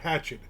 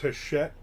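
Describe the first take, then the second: First: It is said like the word hatchet, with 'ch'. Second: It is said the French way, with 'sh'. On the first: The speaker calls it wrong. "I always said Hatchet" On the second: The speaker calls it right. "It's Hachette"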